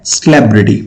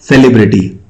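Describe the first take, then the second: First: सेलिब्रिटी as suh-LEB-ri-ti, stress on LEB; सेलिब्रिटी stressed on the second syllable; correct pronunciation. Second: सेलिब्रिटी with a full se-li vowel; सेलिब्रिटी the common mistaken way; wrong pronunciation. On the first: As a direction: say सेलिब्रिटी with a weak first vowel. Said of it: "actual pronunciation क्या है". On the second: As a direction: say सेलिब्रिटी as se-li-BRI-ti. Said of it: "कुछ लोग बोलते हैं". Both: Shown as a demonstration.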